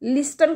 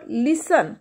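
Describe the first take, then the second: First: A t sound is heard after the s. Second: No t sound is heard after the s. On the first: The speaker calls it wrong. "लिस्टन कधी म्हणता का, नाही" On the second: The speaker calls it right. "टी is silent"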